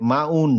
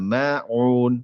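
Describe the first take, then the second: First: The middle throat sound is faint and weak. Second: The middle throat sound is strong and clear. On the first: The speaker calls it wrong. "মাউন না" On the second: The speaker calls it right. "আইনের উচ্চারণে কষ্ট দেন"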